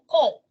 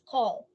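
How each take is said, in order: First: The vowel is long and overstressed. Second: The vowel is relaxed and medium length. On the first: The speaker calls it wrong. "It shouldn't be long or overstressed" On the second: The speaker calls it right. "It's call"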